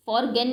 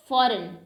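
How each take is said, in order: First: "फॉरगेन" for foreign, with a hard g; G sounded. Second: Said in the usual way. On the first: Shown as a demonstration. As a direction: voice the silent g in "फॉरगेन". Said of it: "नहीं बोलते". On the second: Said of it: "तो इसमें भी जी silent है".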